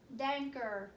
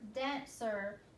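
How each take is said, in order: First: The middle consonant is a k sound. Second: The middle consonant is an s sound. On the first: The speaker calls it wrong. "sounding that out with a k sound" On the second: The speaker calls it right. "let's try it with the s sound"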